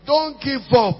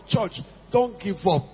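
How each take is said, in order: First: Louder, higher repeat; urgent preacher exhortation; urgent plea. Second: Said in the usual way. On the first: Real, not acted. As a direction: press it on the church. Preacher urges congregation.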